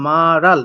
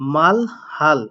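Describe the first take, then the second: First: The h sound is dropped and the syllables link. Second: The h sound is kept between the syllables.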